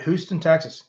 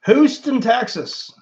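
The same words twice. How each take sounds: First: Said in the usual way. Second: Houston jumps high and loud, then settles; delighted repeat of the city; excited. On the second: Real, not acted. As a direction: say Houston like it thrills you.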